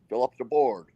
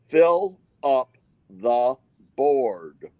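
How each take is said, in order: First: The phrase is said quickly, run together. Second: The phrase is said slowly, word by word.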